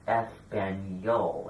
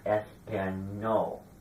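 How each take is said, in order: First: The middle sound is n blended with y. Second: The middle sound is a plain n. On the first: The speaker calls it right. "I was pronouncing this word Espanol" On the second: The speaker calls it wrong. "and not Espanol"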